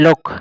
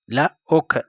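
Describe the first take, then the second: First: Said in the usual way. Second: "La ok" as two separate sounds; sounded out. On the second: Shown as a demonstration. Teacher showing learners the word for washing, "La ok" sounded out.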